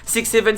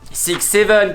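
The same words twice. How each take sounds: First: It is said very fast. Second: It is said at a normal pace.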